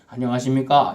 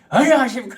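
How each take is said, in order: First: It is said politely and gently. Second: It is said loudly, almost shouted.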